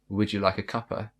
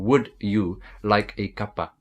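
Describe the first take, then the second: First: It flows smoothly without pauses. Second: It is broken up with pauses. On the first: The speaker calls it right. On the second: The speaker calls it wrong.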